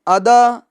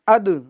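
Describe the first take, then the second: First: The final d runs into a full vowel. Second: The final d ends with a short echo. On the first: The speaker calls it wrong. "इस तरह नहीं, यह गलत है" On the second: The speaker calls it right. "देखिए आवाज लौट कर आ रही है"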